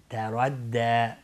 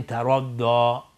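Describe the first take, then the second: First: تردی slow, thin t, heavy r, thin d; long thin ending on تردی; light, heavy, light. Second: تردی with thick d and dark o ending; wrong heavy ending. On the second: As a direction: show the mistaken dark تردی. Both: Shown as a demonstration.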